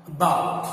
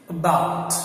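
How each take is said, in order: No difference in how they are said.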